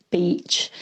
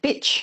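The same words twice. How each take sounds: First: "beach" said with a long, tense ee vowel; "beach" with a clear long ee. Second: "bitch" said with a short, lax i vowel; "bitch" with a quick short i. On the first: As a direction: stretch the ee in "beach". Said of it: "why sometimes would the word beach sound like". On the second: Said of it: "not sound like bitch". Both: Shown as a demonstration.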